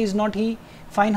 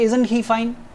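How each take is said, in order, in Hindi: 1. "Is not" को दो पूरे शब्दों की तरह बोला जाता है। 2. "Is not" को एक ही सिलेबल में समेटकर बोला जाता है। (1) "ऐसे नहीं बोलेंगे" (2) "हम बोलेंगे"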